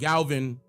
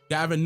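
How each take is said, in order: First: The name is said with an L sound. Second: The name is said without an L sound. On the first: The speaker calls it wrong. "I always call him Galvin... purposely mispronounce" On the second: The speaker calls it right. "this is the governor of California, Gavin Newsom"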